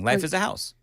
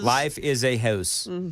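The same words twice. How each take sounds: First: The phrase is said at a fast pace. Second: The phrase is said at a slow pace. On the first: "you say it too fast" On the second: "Let me slow down for you"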